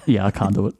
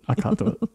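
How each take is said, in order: First: Said in the usual way. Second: High giggly voice, cracking up; can't keep a straight face; breaking character giggling. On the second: Real, not acted. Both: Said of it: "Can't do it with a straight face".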